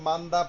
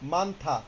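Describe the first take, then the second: First: The second syllable starts with a plain d sound. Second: The second syllable starts with an aspirated th sound. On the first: "আপনি মান্দা পড়েন, সমস্যা নেই" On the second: "আপনার এখন থা পড়ার দরকার নেই"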